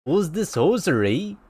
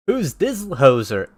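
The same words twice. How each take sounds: First: Put-on copied Canadian accent with a rising end; Canadian judge's puzzled question. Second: Unsure first stab at Canadian; slow, amateur Canadian accent; half-successful Canadian judge. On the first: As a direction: echo the coach's Canadian lilt. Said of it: "There you go". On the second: Acted. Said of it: "do a Canadian accent".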